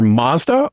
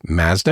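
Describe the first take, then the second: First: "Mazda" said as MAHZ-duh; Mazda with broad "ah". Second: "Mazda" said as MAZ-duh, short a as in "jazz"; flat Canadian "a" in the first syllable of "Mazda"; Canadian pronunciation of Mazda. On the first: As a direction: open "ah" in the first syllable of "Mazda". Contrasted with Canadian way of saying it. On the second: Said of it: "as we say in Canada". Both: Shown as a demonstration.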